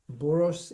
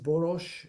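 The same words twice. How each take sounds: First: The name is said with an American pronunciation. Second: The name is said with a Hungarian pronunciation. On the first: This is how it is said in the United States. "in the United States" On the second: This is how it is said in Hungary. "if you are in Hungary"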